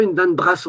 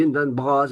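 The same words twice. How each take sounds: First: "brasse" said with a hard s sound at the end, brass; wrong pronunciation. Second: "brasse" said with a voiced z sound at the end, braz; right pronunciation. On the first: Teacher showing the class the wrong way, "brasse" with a hard s. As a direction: say "brasse" ending in a sharp s. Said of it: "mais on ne dit pas". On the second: Teacher showing the class the correct Breton form, "brasse" ending in z. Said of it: "on dit". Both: Shown as a demonstration.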